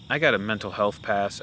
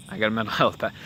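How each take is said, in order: First: Said in the usual way. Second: A real laugh slipping out mid-line. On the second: Real, not acted. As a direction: laugh breaks into the middle of it.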